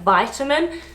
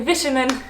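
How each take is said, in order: First: The first vowel sounds like eye, American style. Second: The first vowel is short, British style.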